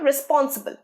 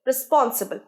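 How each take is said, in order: First: The first syllable has an 'ih' vowel, 'riss'. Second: The first syllable has an 'ih' vowel, 'riss'.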